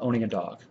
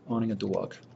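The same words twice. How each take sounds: First: It is said in the speaker's plain accent. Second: It is said in a New Jersey accent.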